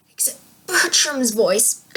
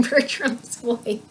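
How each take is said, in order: First: Whispered, slow strained voice; Bertram's voice. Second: Slow, hoarse and strained; strained throat. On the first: Shown as a demonstration. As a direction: rasp it out slowly like Bertram. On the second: Real, not acted. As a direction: push through a sore throat. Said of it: "My throat does not like doing".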